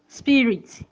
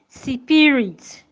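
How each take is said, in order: First: No vowel is inserted between s and p. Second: An extra vowel is inserted between s and p. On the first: The speaker calls it right. "don't insert a vowel between s and p" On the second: The speaker calls it wrong. "do not say spirit"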